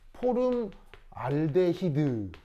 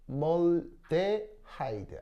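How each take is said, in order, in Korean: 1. 이 단어는 'hid' 소리로 끝납니다. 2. 이 단어는 'hide' 소리로 끝납니다. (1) "일제시대 때 포름 알데히드" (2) "발음 어떻게 하냐면 포멀데하이드"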